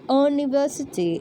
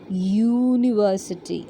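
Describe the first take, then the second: First: It begins with a plain vowel sound. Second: It begins with a 'y' consonant sound. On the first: The speaker calls it wrong. "it is not university" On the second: The speaker calls it right. "the starting sound is year sound"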